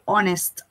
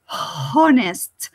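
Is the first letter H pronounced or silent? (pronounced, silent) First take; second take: silent; pronounced. First: The word starts directly with a vowel sound. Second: The word starts with a breathy H sound. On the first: The speaker calls it right. "the H doesn't sound. You say honest" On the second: The speaker calls it wrong. "You don't say honest like in hotel or house"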